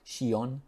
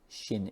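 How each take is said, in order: First: The ending is said as two syllables, 'shi-on'. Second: The ending is said as one syllable, 'shin'. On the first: The speaker calls it wrong. "It's not shion" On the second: The speaker calls it right. "it's inflation"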